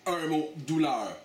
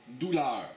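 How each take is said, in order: First: "douleur" drawn out slowly with weight; slow, "Un mot" then heavy "douleur"; slow emphasis on douleur. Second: Said in the usual way. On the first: Real, not acted.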